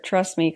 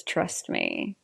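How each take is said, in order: First: Said in the usual way. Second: Low, much softer sarcastic echo; mocking echo. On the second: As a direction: throw his words back coldly. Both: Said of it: "There it is".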